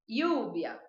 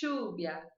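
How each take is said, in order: First: The ll is said like an i sound. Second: The ll is said with an Argentine accent. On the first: "essa seria a pronúncia que eu adoto" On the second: "da Argentina e do Uruguai"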